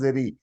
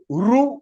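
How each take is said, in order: First: The r is followed by an i sound. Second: The r is followed by a u sound. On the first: The speaker calls it wrong. "In Hindi, it is pronounced as ri. ... It is wrong" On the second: The speaker calls it right. "So it is ru"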